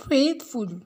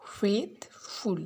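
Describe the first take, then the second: First: Said in the usual way. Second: "faithful" broken in two, faith, pause, ful; split into syllables. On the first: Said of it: "Faith is one syllable". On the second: Shown as a demonstration. Teacher showing pupils two syllables, "faithful" split apart. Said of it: "Faith is one syllable, the full is the second".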